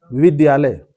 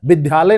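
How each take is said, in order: First: विद्यालय said as "vid-ya-lay", Y clearly sounded; half D, full Y. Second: विद्यालय said as "biddhalay", with no Y; wrong DH sound. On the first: Teacher giving the correct word, विद्यालय said as "vid-ya-lay". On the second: Teacher rejecting a mistake, विद्यालय said as "biddhalay". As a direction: drop the Y from विद्यालय, making it "biddhalay". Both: Shown as a demonstration. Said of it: "विद्यालय नहीं होता है".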